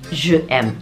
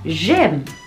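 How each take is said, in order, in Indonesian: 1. Vokal 'je' diucapkan penuh. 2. Vokal 'je' dihilangkan. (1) "Jelek banget" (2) "Jadilah j'aime"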